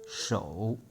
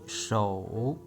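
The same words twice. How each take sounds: First: The word is said at normal speed. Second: The word is said slowly and drawn out.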